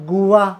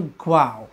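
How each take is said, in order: First: The word begins with a separate goo sound. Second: The word begins with a gliding gwah sound. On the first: The speaker calls it wrong. "बरेच मुलाला कदाचित गावा किंवा गुवा असे उच्चार करतात" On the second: The speaker calls it right. "पण हा शब्द आहे ग्वाव"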